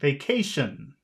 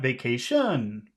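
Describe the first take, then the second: First: The pitch starts high and falls at the end. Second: The pitch starts low and rises at the end. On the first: The speaker calls it right. "you should be going starting high and going down" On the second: The speaker calls it wrong. "starting low and going up"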